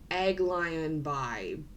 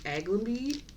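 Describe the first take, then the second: First: It is read out closely following its spelling. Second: It is said smoothly, with a shortened middle. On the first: The speaker calls it wrong. "I don't think it's pronounced that way" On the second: The speaker calls it right. "I think it's pronounced Aglenby"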